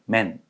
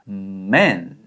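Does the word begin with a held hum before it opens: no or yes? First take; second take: no; yes. First: It starts directly, with no held hum first. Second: It starts with a held closed-lip hum first. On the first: The speaker calls it wrong. "이게 아니라" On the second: The speaker calls it right. "man 이렇게 발음을 하게 되는 원리입니다"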